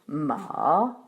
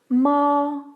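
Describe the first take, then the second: First: The pitch dips down, then rises again. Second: The pitch stays high, long and flat. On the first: It means horse. "Le troisième ton part de la tierce, descend à la tonique, puis remonte à la quinte" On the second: It means mother. "Le premier ton se prononce à la quinte supérieure. Il est long et plat"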